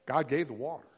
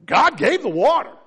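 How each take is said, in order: First: Said in the usual way. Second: Louder, higher, proclaimed; loud emphatic take. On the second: Shown as a demonstration. Preacher proclaiming to the church, loud and high. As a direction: call out the water, big.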